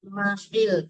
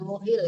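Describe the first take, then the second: First: The first vowel is an open 'a' sound. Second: The first vowel is a rounded 'u' sound. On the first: The speaker calls it right. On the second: The speaker calls it wrong. "bukan muhil ya"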